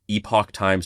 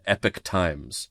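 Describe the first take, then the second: First: The first word is said with the older pronunciation. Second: The first word is said like the word epic. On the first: This is the original name. "changed the pronunciation of the thing from Epoch Times" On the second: This is the rebranded name. "to Epic Times"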